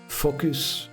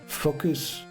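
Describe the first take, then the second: The two takes are said the same way.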